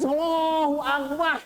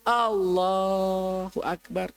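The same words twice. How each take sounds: First: It is said in a high, rising pitch. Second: It is said low and humbly, bowed down.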